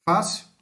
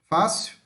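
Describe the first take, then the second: Both takes have the same delivery.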